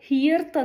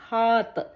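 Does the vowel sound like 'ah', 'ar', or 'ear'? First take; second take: ear; ah. First: The vowel sounds like 'ear' with an r. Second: The vowel is a plain 'ah' without r. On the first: The speaker calls it wrong. "ഹിയർത്ത് എന്നോ ഹാർത്ത് എന്നോ ഇർ ആ ഒരു pronunciation വരാനായിട്ടുള്ള ഒരു tendency" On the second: The speaker calls it right. "നമ്മൾ ആറ് pronounce ചെയ്യേണ്ട, അതിന് പകരം ഹാത്ത് എന്നാണ് ഈ വേർഡ് പ്രൊനൗൺസ് ചെയ്യേണ്ടത്"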